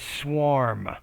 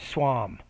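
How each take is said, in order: First: The R in the middle is clearly pronounced. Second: The R in the middle is weak or dropped. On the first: The speaker calls it right. "instead of swarm" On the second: The speaker calls it wrong. "you say more swam"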